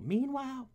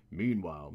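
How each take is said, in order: First: Very high butler voice; high trial butler; Alfred. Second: Low butler voice; low trial butler; Alfred. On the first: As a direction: squeak it as a high-pitched butler. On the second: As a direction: try the butler pitched down. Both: Acted. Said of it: "for Alfred".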